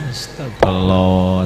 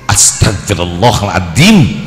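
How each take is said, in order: First: It is said in a calm, sincere tone. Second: It is said in an annoyed, irritated tone.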